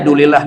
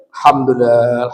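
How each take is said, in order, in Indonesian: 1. Diucapkan cepat dan tidak jelas, suku katanya berkurang. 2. Diucapkan pelan, setiap suku kata terucap dengan jelas. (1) "Jadi kedengarannya dulilah aja" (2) "yang tajwid, yang tartil bacanya, yang fasihat"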